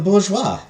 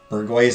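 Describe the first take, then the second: First: It is said with a French-style pronunciation. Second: It is said with an English-style pronunciation. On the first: The speaker calls it right. "It's the bourgeois" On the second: The speaker calls it wrong. "Never pronounce bourgeois as bourgeois again"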